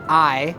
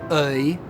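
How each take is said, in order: First: The diphthong starts from an open position. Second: The diphthong starts from a central position. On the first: This is the modern pronunciation. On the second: This is how it was said in Shakespeare's time.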